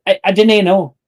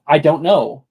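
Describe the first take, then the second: First: "dene" said din-AY, in place of don't; Scots phrase. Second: Said in the usual way. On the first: Shown as a demonstration. Showing Scots to friends, "dene" said din-AY. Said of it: "but it's Scots". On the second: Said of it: "is actually "do not".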